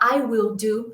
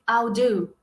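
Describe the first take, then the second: First: I will is said as two full words. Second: I will is contracted into one syllable. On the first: "ao invés de ele falar I will do" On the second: "ele pode falar I'll do"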